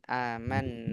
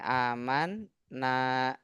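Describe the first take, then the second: First: The two n sounds merge into one doubled n. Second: The word is split into two parts. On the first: This is the assimilated form actually used. "diidghamkan jadi pakai tasydid" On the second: This is the underlying original form. "Aslinya kayak gini"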